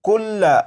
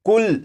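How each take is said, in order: First: The word ends with a short vowel after 'l'. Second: The word ends on the 'l' with no vowel. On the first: This is the form as written, read without stopping. "ये लफ्ज लिखा है कुल्ला" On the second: This is how it is read when stopping on it. "जब इस लफ्ज को वक्फ में पढ़ेंगे तो लाम के ऊपर जो जबर है इस जबर को नहीं पढ़ेंगे"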